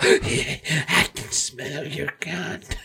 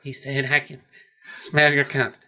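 First: Slow, very quiet creep; hushed, leering lunatic impression; creepy madman. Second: Lightly voiced, subdued reply; understated imitation of a reluctant answer; Clarice. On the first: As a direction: draw it out softly like a deranged prisoner. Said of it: "that crazy schizophrenic guy". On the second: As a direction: repeat it a little quietly, in character. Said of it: "She's like".

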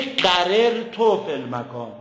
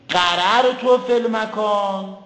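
First: قرر تو said qarirto, with i on the second r; second dialect reading. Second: قرر تو said qararto, with a on both r's; first dialect reading. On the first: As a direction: read قرر تو as qar-ir-to, an i vowel after the first r. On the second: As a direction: read قرر تو as qar-ar-to, open a vowels. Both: Shown as a demonstration. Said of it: "زجاج گفته در این کلمه دو تا لهجه".

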